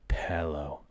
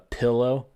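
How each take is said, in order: First: The word is said in a soft, smooth way. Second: The word is said in a harsh, pointed way.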